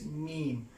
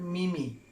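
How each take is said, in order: First: It is said as a single syllable, meem. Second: It is said as two syllables, like mee-mee. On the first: The speaker calls it right. "that is meme" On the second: The speaker calls it wrong. "I often see a people they pronounce the word mimi"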